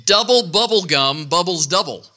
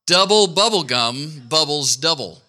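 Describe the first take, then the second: First: Tongue twister demo. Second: Said in the usual way. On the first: Shown as a demonstration. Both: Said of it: "Here's a good one".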